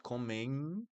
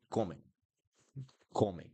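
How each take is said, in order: First: Comem ending on closed lips, rising; wrong closed M. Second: Comem ending nasal, lips left open. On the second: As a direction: leave the mouth open at the end of comem. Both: Shown as a demonstration. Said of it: "will not sound like M".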